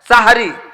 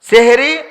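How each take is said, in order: First: The first vowel is an 'a' sound. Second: The first vowel is an 'e' sound. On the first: It means the pre-dawn meal. The speaker calls it right. "সাহরি বলতে হবে।" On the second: It means magic. The speaker calls it wrong. "এটা ভুল"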